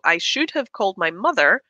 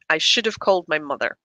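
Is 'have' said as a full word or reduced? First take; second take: full; reduced. First: 'Have' is said as a separate full word. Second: 'Have' is reduced to a schwa, joined to 'should'. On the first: "will change into" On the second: "contract and become one block of sound"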